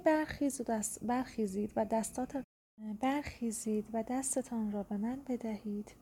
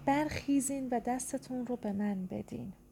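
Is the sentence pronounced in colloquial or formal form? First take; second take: formal; colloquial. First: The words keep their full formal endings. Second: The words use shortened colloquial endings. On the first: This is the written form of the sentence. "این صورت نوشتاریشه" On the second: This is the spoken form of the sentence. "حالا به شکل گفتاری میخواد این تبدیل بشه"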